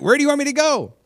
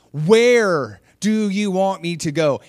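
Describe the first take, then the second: First: Very high, loud retold plea; exasperated mock cry. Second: Slow, loud and high, stretching WHERE; exasperated, drawn-out plea. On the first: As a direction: blurt it up to God in mock exasperation. Retold missionary repeats her exasperated plea. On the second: Retold or imitated. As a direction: act out labouring each word in exasperation. Same plea retold, drawn out.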